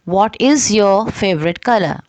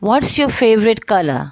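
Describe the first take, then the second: First: It is said as two words, "what is". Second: It is shortened into one syllable, "what's".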